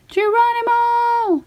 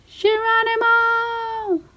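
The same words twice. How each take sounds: First: High, stretched yell of Geronimo; gleeful shout. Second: High, long whoop of Geronimo; gleeful shout. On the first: Mac diving back into the watering hole, a high gleeful yell. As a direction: whoop it as you leap. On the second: Friends jumping into the mud hole, a high gleeful yell. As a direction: leap in yelling it high and stretched. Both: Acted.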